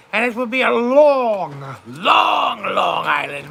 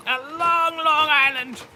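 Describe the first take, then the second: First: Each long stretched and pushed, the last dropping low; drawn-out long long. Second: Said in the usual way. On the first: Shown as a demonstration. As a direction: lean hard on every long, long. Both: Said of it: "The island will be so long".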